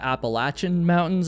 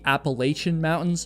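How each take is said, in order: First: It is said the Southern way. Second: It is said the New England way. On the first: "everyone in the South calls them the Appalachian Mountains" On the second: "We call them the Appalachian Mountains up there"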